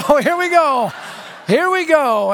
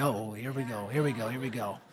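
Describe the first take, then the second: First: High-pitched, raised-voice reaction; alarmed bracing. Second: Low, hushed mutter to himself; uneasy aside. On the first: Preacher to himself as more vodka arrives, high alarmed reaction. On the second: Preacher to himself as the big guy whispers to the girl, muttering low. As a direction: brace for trouble under your breath. Bracing himself as trouble brews. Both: Retold or imitated.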